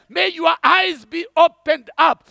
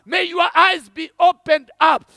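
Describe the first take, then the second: No difference in how they are said.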